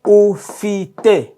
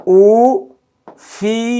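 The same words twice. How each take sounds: First: Ufite said as oo-FEE-teh, falling; three syllables. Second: Ufite said higher and louder, rising; emphatic repeat. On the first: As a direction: clear model of ufite. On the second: Teacher repeats ufite for learners, louder and higher. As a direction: ring out ufite for the class. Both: Shown as a demonstration. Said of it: "Three syllables".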